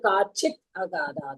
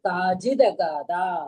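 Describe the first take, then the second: First: The words are kept apart with a voiceless ending. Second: The words are joined with a voiced linking sound. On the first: These are the underlying separate words. "ஆனா அது காச்சித் அகாதா தான்" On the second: This is how the combined text is read. "சேர்த்து படிக்கிறோம்"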